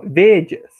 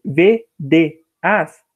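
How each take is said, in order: First: "vedias" in two syllables, ve-dyas, the e glided into a; run together. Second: "V, D, As" as three slow syllables, ve-de-as; three separate syllables. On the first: Teacher showing spoken form, "vedias" merged into two syllables. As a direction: blend the middle of "vedias" into one sound, ve-dyas. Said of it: "aqui a gente fala vedias". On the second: Teacher showing the normal division, "V, D, As" in three separated syllables. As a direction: break "V, D, As" apart, one beat each. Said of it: "são três". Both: Shown as a demonstration.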